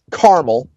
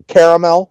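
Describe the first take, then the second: First: Caramel said as CAR-mul; Northwest pronunciation. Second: Caramel said as CARE-uh-mel; Southern pronunciation. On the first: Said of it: "as we say in the, uh, Northwest". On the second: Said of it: "in the South". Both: Shown as a demonstration.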